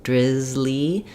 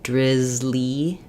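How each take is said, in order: Both takes have the same delivery.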